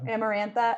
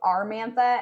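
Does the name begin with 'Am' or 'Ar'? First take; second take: Am; Ar. First: The name begins with 'Am' and has four syllables. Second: The name begins with 'Ar' and has three syllables. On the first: The speaker calls it right. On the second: The speaker calls it wrong.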